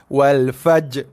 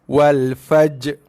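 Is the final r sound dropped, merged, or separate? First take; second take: dropped; dropped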